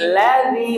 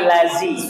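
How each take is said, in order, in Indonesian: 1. Konsonan tengahnya bunyi 'dh'. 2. Konsonan tengahnya bunyi 'z'. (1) "ladzi bukan lazi" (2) "bukan lazi"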